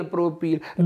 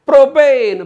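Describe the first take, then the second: First: Said in the usual way. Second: propane loud and high, falling at the end; punchy classroom call; shouted drill. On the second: Shown as a demonstration. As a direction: belt out propane to lead a chant. Chants alkane against alkyl name.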